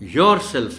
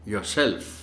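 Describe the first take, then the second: First: The stress is on the first syllable. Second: The stress is on the second syllable. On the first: The speaker calls it wrong. "Yourself नहीं कहना" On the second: The speaker calls it right. "Stress इसमें एस पर है"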